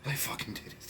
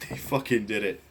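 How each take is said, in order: First: Hushed, disbelieving whisper of praise; awed whisper. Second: Said in the usual way. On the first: Real, not acted. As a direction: breathe it out in a stunned whisper. Stunned praise of the movie.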